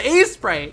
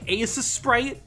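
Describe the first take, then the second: First: The S sound is said only once. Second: The S sound is said twice. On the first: The speaker calls it right. "But it's just" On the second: The speaker calls it wrong. "trying to say the S sound twice"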